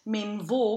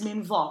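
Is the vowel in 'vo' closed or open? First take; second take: closed; open. First: The final O vowel is closed. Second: The final O vowel is open. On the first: The speaker calls it wrong. "So it's not men vo" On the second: The speaker calls it right. "here we end up with this open one"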